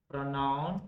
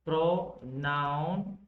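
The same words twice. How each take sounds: First: Said in the usual way. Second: "Pronoun" stretched into pro... noun; teacher sounding out "Pronoun" in two parts; slow syllable split. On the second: Shown as a demonstration. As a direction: draw out both halves of "Pronoun". Breaks the term into parts.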